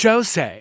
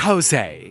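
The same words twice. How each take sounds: First: The name begins with a J sound. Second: The name begins with an H sound. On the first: The speaker calls it wrong. "not Jose" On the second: The speaker calls it right. "It's pronounced Jose, Spanish J is H"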